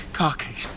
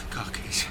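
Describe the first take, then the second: First: Said in the usual way. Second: Breathless whisper. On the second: Acted. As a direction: whisper it to yourself. Whispering to herself.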